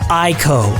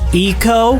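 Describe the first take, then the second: First: The first vowel is a hard 'eye' sound. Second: The first vowel is a soft 'ee' sound.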